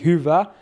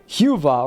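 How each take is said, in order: First: The vowels are Finnish front vowels y and ä. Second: The vowels are simplified, without Finnish front vowels. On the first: The speaker calls it right. "It's supposed to be" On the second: The speaker calls it wrong. "She was like "huva" or something"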